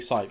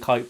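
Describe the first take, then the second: First: The name begins with an S sound. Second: The name begins with a K sound. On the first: "that's how you pronounce it in English" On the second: "Kype with a K"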